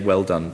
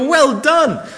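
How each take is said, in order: First: It is said in a calm, understated way. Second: It is said with excited, enthusiastic energy. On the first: The praise is polite and understated. "But because I'm British, I'll just say" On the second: The praise is wholehearted and exuberant. "you almost want to kind of jump out of your seat and go"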